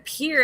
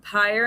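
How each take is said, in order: First: The vowel rhymes with 'ear'. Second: The vowel rhymes with 'fire'. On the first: The speaker calls it wrong. "I said a pier" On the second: The speaker calls it right. "do you mean pyre?"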